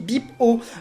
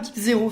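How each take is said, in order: First: The final character is read as oh. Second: The final character is read as zero. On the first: The speaker calls it right. "ça se dit bip O" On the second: The speaker calls it wrong. "ça ne se dit pas bip zéro"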